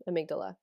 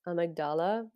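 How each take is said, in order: First: "amygdala" softly, stressed on MIG with a short second A; corrected pronunciation. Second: "Amygdala" with an open, stressed AH in DAL, softly rising; unsure pronunciation. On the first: Speaker correcting her own attempt, "amygdala" softly as a-MIG-duh-la. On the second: Speaker trying out a word she may say wrong, "Amygdala" tentatively as a-mag-DAH-la. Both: Shown as a demonstration. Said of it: "I'm gonna say it wrong".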